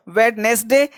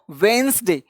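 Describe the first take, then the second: First: "वेडनेसडे" in three parts, wed-nes-day; fully sounded version. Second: "वेंसडे" in two parts, wens-day; shortened version. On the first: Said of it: "या तो sound निकालो". ("वेडनेसडे" में ड बोलते हुए, तीन हिस्सों में) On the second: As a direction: drop the middle D in "वेंसडे". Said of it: "या तो बोलो आप इसको". ("वेंसडे" छोटा करके, बिना ड के) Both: Shown as a demonstration.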